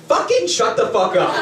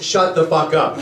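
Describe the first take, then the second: First: Higher, emphatic "Fucking shut the fuck up"; intensified curse. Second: Said in the usual way. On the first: Shown as a demonstration. Translating the added curse, intensified "Fucking shut the fuck up". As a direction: lead hard on "Fucking", pitched up, then drive through "shut the fuck up". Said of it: "Adding the 씨발 is like saying". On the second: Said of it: "in itself is".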